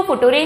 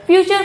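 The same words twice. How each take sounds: First: फुटूरे, sounded out letter by letter as "foo-too-ray"; wrongly phonetic फुटूरे, with a hard t; spelling pronunciation. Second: Said in the usual way. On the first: Shown as a demonstration. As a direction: read future as it is spelt, फुटूरे. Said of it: "पर अंग्रेजी में ऐसा नहीं होता". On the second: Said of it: "फ्यूचर को फुटूरे नहीं कह सकते".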